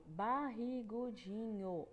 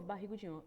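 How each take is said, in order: First: BARRIGUDINHO stretched slowly, one beat per syllable. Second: Said in the usual way. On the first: Shown as a demonstration. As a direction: draw out every syllable of Barrigudinho for counting. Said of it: "Cinco sílabas". (Barrigudinho bem devagar, sílaba por sílaba) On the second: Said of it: "olha isso de novo".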